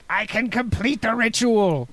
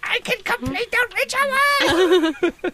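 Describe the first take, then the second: First: It is said without a Cobra Commander impression. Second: It is said in a Cobra Commander impression.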